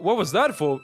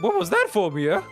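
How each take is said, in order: First: It is said in the speaker's normal voice. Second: It is said in a put-on character voice.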